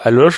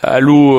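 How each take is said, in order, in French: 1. Le nom finit par un son 'sh'. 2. Le nom finit par une voyelle. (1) "Ils ont le réflexe de dire Aloche, donc on les corrige" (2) "s'écrit avec un C H à la fin. Alors ça se, ça se prononce pas"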